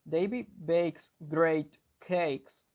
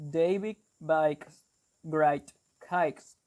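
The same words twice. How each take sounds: First: Slow Geordie 'David bakes great cakes', with 'ay' vowels; Geordie accent. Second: Slow Brummie 'David bakes great cakes', 'ay' turned to 'eye'; Brummie accent. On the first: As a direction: demonstrate Geordie, slowly, word by word. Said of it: "The Geordie accent is, for example". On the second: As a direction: demonstrate Brummie, saying BAKES like 'bikes'. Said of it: "instead of saying "a," they say". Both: Shown as a demonstration.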